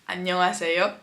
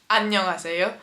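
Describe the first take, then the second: First: It is said with native Korean sounds. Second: It is said with native Korean sounds.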